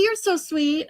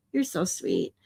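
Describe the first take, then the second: First: High, lively thank-you; touched and bright. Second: Lower, much softer, heartfelt; tender. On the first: Streamer thanks viewer Katie, high and gushing. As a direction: gush at the kind gesture. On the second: Streamer thanks viewer Katie again, low and tender. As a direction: say it quietly from the heart. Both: Real, not acted. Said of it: "Aw, Katie".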